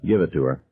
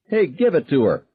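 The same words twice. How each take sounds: First: Said in the usual way. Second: High egging-on yell. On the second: A narrator's reading. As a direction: cheer the fight on. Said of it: "Billy Sawyer yelled".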